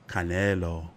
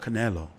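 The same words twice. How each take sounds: First: The name is said with a Spanish accent. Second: The name is said with an English accent.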